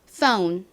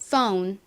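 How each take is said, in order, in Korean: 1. 미국식 긴 o 소리로 발음했어요. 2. 미국식 긴 o 소리로 발음했어요.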